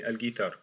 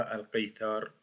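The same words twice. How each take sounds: First: "al-guitar" with a French g, as in French; correct pronunciation. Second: "al-qitar" with a hard back q sound; wrong pronunciation. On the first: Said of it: "comme en français". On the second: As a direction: show the wrong "al-qitar", q from the throat. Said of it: "On ne dit pas". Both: Shown as a demonstration.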